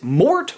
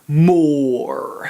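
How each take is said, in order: First: The final T sound is pronounced. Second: The final T sound is silent. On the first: "Do you pronounce the T" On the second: "I just feel pretentious saying more"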